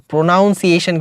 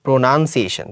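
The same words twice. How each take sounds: First: প্রোনাউন্সিয়েশন with "noun" in the middle; the mistaken diphthong "ow" in প্রোনাউন্সিয়েশন; mispronunciation demo. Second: প্রোনাউন্সিয়েশন with "nun", not "noun"; short middle vowel in প্রোনাউন্সিয়েশন; correct pronunciation. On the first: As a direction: say প্রোনাউন্সিয়েশন as pro-NOUN-see-ay-shun. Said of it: "কিন্তু হবে না". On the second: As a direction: say প্রোনাউন্সিয়েশন as pro-nun-see-AY-shun. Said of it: "এটা কি হবে?". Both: Shown as a demonstration.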